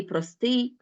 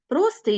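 First: Простий said as pro-STYI; простий with the ending strong; stress on last syllable. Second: Простий said as PRO-styi; простий with the opening syllable strong; stress on first syllable. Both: Shown as a demonstration. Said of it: "слова з подвійним наголошенням".

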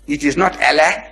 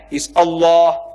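First: Allah with flat a sounds, /ælæ/; Allah said the English way, ælæ; wrong Allah. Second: Allah with a long open o, /əlɔ/; Allah said properly, the Arabic way; right Allah. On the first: Preacher mocking the English way of saying Allah. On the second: Preacher teaching the right way to say Allah. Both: Shown as a demonstration. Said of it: "pronounce the way I asked you to pronounce".

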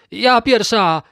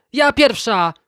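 First: High, loud pushy shout; a spoiled stepsister screaming to go first; yelling. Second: High, loud pushy shout; a spoiled stepsister screaming to go first; yelling again. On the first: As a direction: shove ahead and yell to be first. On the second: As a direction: keep yelling over her sister. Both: A narrator's reading. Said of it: "darła się Juzinka".

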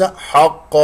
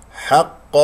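First: حق with a thick, backed ح; wrongly heavy ha. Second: حق with a thin, fronted ح before heavy ق; light ha. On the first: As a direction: demonstrate the mistake, darkening the vowel after ح in حق. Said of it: "وليس حق". (حق بتفخيم الحاء خطأً) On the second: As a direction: keep the vowel after ح light in حق. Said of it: "لا تفخم الحاء". (حق بحاء مرققة وقاف مفخمة) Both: Shown as a demonstration.

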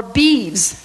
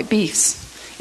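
First: Said in the usual way. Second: "Beefs" with a voiceless F-S ending; beeves as beefs. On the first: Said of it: "a different way". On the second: Shown as a demonstration. Teacher trying the word a different way, F sound in beefs. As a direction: say "Beefs", ending like beef plus S. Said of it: "try to pronounce that a, a different way".

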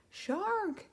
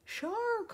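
First: High alarmed cry; shout. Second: Much higher, shrill-pitched alarm cry; panicked shout. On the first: Flounder shouting a warning to Ariel, alarmed. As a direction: warn her of the shark. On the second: Flounder screaming at Ariel as the shark bursts in, panicked. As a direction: scream the warning in full panic. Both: Acted. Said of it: "Flounder shouted".

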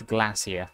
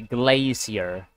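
First: "glacier" said the British way, as GLASS-ee-uh; short a and soft ending in "glacier", softer and quieter; British pronunciation. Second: "glacier" said the American way, with "glay" as first syllable; American pronunciation. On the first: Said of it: "British pronunciation". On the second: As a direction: say "glacier" with a long ay, American style. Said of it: "in the American pronunciation". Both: Shown as a demonstration.

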